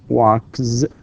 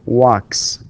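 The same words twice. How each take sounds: First: The word ends with a voiced z sound. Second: The word ends with a voiceless s sound. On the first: The speaker calls it wrong. "not z with z with z sound" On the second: The speaker calls it right. "it's with s sound"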